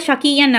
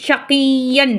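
First: ஷகியன் quickly, with a light single y; short, unstressed "ki-yan" in ஷகியன்; unpressed y. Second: ஷகியன் with a long, firmly pressed ய; pressed doubled y. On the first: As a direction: say ஷகியன் without leaning on the ய. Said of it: "அப்படின்னு படிக்கக்கூடாது". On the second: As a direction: lean hard on the y in ஷகியன், "shakiyy-yan". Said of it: "நல்லா அழுத்தி படிக்கணும்". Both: Shown as a demonstration.

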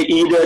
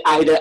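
First: "either" said as EE-ther; "either" starting on an ee sound; Vincentian pronunciation. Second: "either" said as EYE-ther; "either" with an eye sound up front; Saint Lucian pronunciation. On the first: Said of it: "Vincentians say either". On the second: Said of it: "Saint Lucian say either". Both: Shown as a demonstration.

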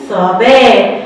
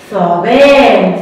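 First: Said in the usual way. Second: ثعبان stretched very slowly; slow model word. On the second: Shown as a demonstration. Teacher to children, modelling ثعبان very slowly. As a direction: draw out every sound of ثعبان. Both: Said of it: "ثو".

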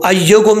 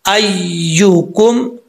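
First: अय्युकुम said as "ayyokum", with o; quick अय्युकुम with a wrong o after the y; wrong vowel. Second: अय्युकुम slowly, held y and clear "yoo"; correct yu vowel. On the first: Teacher warning against the misreading, wrong o vowel. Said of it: "नहीं पढ़ना". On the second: Teacher correcting to yu for students, slow clear vowel. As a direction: draw out the yu in अय्युकुम. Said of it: "यहाँ पे यू होता है". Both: Shown as a demonstration.

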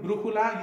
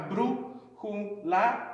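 First: "brújula" in one go, higher, stress on the first syllable; "brújula" run together with a raised, stressed start; whole word, first syllable stressed. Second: "brújula" slowly pulled apart into syllables; slow teaching breakdown of "brújula". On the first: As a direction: say "brújula" all the way through, leaning on brú. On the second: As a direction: sound out "brújula" one piece at a time. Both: Shown as a demonstration. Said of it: "when you say the word all the way through".

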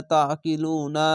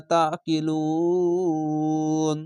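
First: Said in the usual way. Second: লুন with a very long held "uu", closing on a silent-vowel n; three-alif stretch. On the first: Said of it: "যদি থামেন বা ওয়াকফ করেন". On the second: Shown as a demonstration. Teacher shows stopping at verse end, লুন stretched very long. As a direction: draw লু out slowly, then stop on ন. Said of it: "তিন আলিফ টেনে পড়তে হবে".

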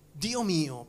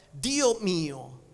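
First: Said in the usual way. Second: Anguished cry. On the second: Acted. (grido angosciato su "Dio") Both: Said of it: "Gesù gridò con gran voce".

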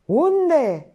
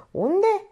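First: High, loud bellowed question; roar. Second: High, raised-voice question; sharp demand. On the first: A narrator's reading. Painter losing patience with Minerva, roaring. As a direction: explode with impatience. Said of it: "răcni pictorul". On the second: Acted. Painter pressing Minerva for an answer, demanding. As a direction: demand it urgently.

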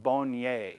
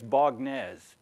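First: Bonnier said as bon-YAY, silent final consonant; French pronunciation. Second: Bognez said as it is spelled, with a hard g; American mispronunciation. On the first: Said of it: "In French, it's pronounced". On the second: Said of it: "if you were an American, you'd say". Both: Shown as a demonstration.

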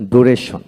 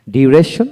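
First: ডুরেশন without the glide, "du-reshon"; alternative pronunciation. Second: ডিউরেশন with a y-glide, "dyu-reshon"; preferred pronunciation. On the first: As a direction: say ডুরেশন starting "doo". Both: Shown as a demonstration. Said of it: "আমরা ডিউরেশন বলি".

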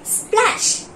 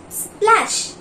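First: Whispered word. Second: Said in the usual way. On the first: Shown as a demonstration. Teacher models the word for pupils, whispered. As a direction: breathe the word "Splash." out as a whisper. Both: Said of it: "Read along with me".

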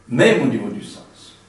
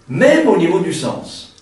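First: Said in the usual way. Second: Higher, louder and slower, leaning on même; emphatic repeat. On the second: Real, not acted. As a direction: stretch out "même au niveau du sens", pitched up and pressed loud.

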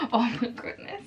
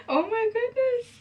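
First: Awed, with a little laugh; understated amazement in a usual-pitched voice; awed reaction. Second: Very high, slow squeal; drawn-out high-pitched awe; thrilled amazement. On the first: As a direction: take it in with quiet amazement. First reaction on seeing palette. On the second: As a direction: squeak it out slowly, overcome with delight. Repeats reaction, overcome by palette. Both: Real, not acted.

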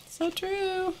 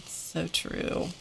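First: Much higher, squeaky so true; squeaky agreement. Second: Softly whispered so true; whispered agreement. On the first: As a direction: squeak it out playfully. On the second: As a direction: breathe it out as a whisper. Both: Pretend. Agreeing with a viewer comment.

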